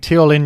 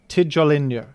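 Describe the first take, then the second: First: The name is said without a J sound. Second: The name is said with a J sound. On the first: The speaker calls it wrong. "the whole time I've been saying Teolin" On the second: The speaker calls it right. "pronounced with the letter J as, as you're supposed to pronounce it in normal English"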